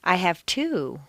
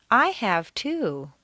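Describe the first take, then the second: First: Two stressed and falling. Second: Slow, I stressed and falling. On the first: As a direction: hit two, the number. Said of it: "How many kids do you have?". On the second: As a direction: lean on I. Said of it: "I've been to Europe". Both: Shown as a demonstration.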